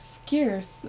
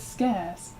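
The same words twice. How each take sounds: First: It is said with an American accent. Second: It is said with a British accent. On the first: "the American pronunciation, and it's like scarce" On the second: "even British people say it as scarce"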